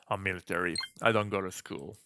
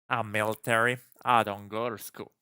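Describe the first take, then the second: First: It is spoken in a deep, calm voice. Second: It is spoken with a southern American accent. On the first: The speaker calls it right. "Let's just give him a deep voice" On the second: The speaker calls it wrong. "Fine, southern"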